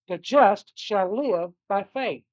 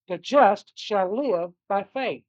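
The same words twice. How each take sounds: First: The stress is on the word live. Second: The same.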